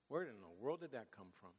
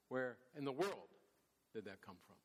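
First: It is said plainly, without special emphasis. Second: It is said with strong, incredulous emphasis.

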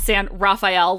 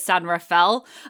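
First: Rafael sounds like the turtle's name Raphael. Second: Rafael does not sound like the turtle's name. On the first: The speaker calls it wrong. "Not San Rafael, like the Teenage Mutant Ninja Turtle" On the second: The speaker calls it right. "I think is how you're supposed to pronounce it"

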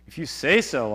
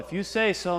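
First: The tone is grudging and sarcastic. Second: The tone is respectful and sincere. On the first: He doubts it will work but goes along. "I never know if Peter's being a little sarcastic in that" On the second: He humbly agrees to obey. "Is it a reverent"

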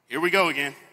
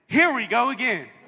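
First: It is said in a tired, exasperated way. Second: It is said in an eager, excited way. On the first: Something bad is happening once more. "you probably said those words and you said it like this" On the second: Something good is starting once more. "we've probably never said it like this"

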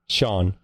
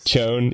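First: The name is said like 'Sean'. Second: The name is said like 'Chone'. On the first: This is how the player says his own name. "He pronounces it Sean" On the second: This is how the name is read from its spelling. "I pronounce it Chone"

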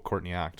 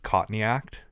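First: It is said in an American accent, with r. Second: It is said in an Australian accent, without r. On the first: The name sounds like a plain name. "for the American audience, it's just oh" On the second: The name sounds like caught in the act. "when you say it with an Australian accent"

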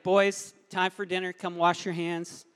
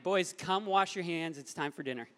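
First: It is said noticeably louder. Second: It is said at normal, quieter volume.

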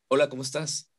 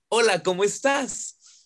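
First: It sounds angry, through clenched teeth. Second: It sounds happy, as if smiling.

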